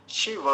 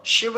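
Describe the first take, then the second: First: शिव said "shi-va", higher pitch; full final va. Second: Said in the usual way. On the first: Shown as a demonstration. Teacher correcting students, full va in शिव. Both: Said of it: "शिव नहीं बोलेंगे".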